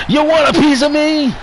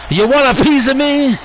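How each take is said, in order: The two takes are said the same way.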